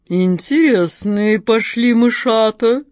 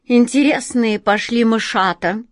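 First: Slow, purring cat in a put-on bass voice; deep purr. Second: A sly smirk into the whiskers; amused cat toying with her catch, smirking. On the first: The cat purrs menacingly at her trapped prey, slow bass purr. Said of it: "басом промурлыкала кошка Мурка". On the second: The cat mocks her prey with a sly smirk. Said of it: "ухмыльнулась в усы кошка Мурка". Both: A narrator's reading.

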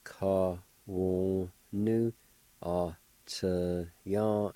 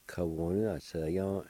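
First: Ka-wo-nu, ah-cha-yan very slowly, each syllable apart. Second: Said in the usual way. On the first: Shown as a demonstration. Teacher putting both parts together, slow syllable by syllable. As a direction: sound out ka-wo-nu, ah-cha-yan in six held beats. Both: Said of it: "And together".

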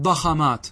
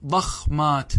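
First: ضخمات said "daxamāt", a after the kh; disallowed vowel echo. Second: ضخمات said slowly "daxmāt", no vowel after the kh; kha left unvoweled. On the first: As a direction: say ضخمات as da-kha-māt. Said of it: "الحرف الثاني حركة الحرف الأول". (ضخمات بفتح الخاء) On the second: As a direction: hold the closed kh in ضخمات, dakh-māt. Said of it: "الخاء ساكنة". (ضخمات بسكون الخاء مع تمهل) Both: Shown as a demonstration.

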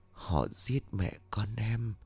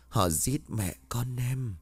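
First: Soft, slow murmur of a dead woman close by; ghostly murmur. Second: Slow, soft, hollow echo from the beyond; eerie ghost voice. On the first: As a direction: breathe it slowly into his ear like a ghost. (thì thầm chậm rãi như hồn ma) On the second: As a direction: let the ghost's plea drift in from far off. (giọng hồn ma vọng lại, chậm và xa xăm) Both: A narrator's reading. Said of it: "anh nghe giọng nói của Hân bên tai".

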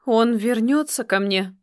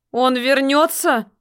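First: Said in the usual way. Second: Higher, louder, slow pleading cry; louder shout. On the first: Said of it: "громче закричала". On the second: A narrator's reading. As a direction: shout the question out. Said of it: "громче закричала Эрхина".

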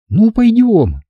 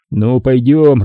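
First: Put-on high, girlish "пойдём"; girl's consent. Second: Said in the usual way. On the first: A narrator's reading. Girl echoes him in her voice.

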